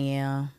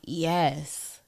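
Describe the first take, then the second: First: It sounds reluctant and obligatory. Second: It sounds eager and enthusiastic.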